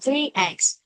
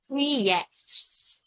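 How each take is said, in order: First: The two words are said without an inserted sound. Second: A consonant sound links the two words together. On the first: "Bình thường thì đọc là three eggs" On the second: "đọc lướt nhanh thì nó hay đọc nghe thành âm là three eggs"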